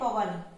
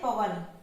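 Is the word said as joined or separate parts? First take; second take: joined; joined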